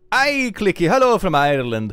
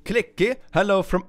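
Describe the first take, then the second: First: Loud, put-on Irish accent; hearty mock Irish greeting, loud. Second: Said in the usual way. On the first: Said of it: "do an Irish accent for this". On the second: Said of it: "I have to do an Irish accent".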